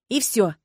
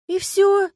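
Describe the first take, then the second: First: Firm, final retort; curt cut-off. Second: High, loud, let-down question; disappointed drawl. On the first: Heroine ending Agata's questions, curt and final. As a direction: shut the question down curtly. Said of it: "отрезала я". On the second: Agata hoping for romance with the dragon, disappointed. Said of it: "разочарованно протянула Агата". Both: A narrator's reading.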